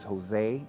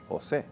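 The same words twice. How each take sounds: First: The name is said with an A sound. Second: The name is said without that A sound. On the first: The speaker calls it wrong. "when somebody says Jose with an A" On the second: The speaker calls it right. "It's pronounced Jose"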